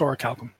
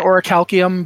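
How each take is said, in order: First: The word ends with a '-kum' sound. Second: The word ends with a '-see-um' sound. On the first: This is the proper pronunciation. The speaker calls it right. "but it's Oracalcum" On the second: This is a common mispronunciation. The speaker calls it wrong. "Some people pronounce it Oracalcium"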